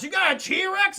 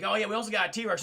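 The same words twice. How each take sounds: First: Loud, high incredulous question; shocked disbelief. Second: Said in the usual way. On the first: Retold or imitated. Guest reacting to the T-Rex news, loud disbelief. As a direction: blurt it back, astounded.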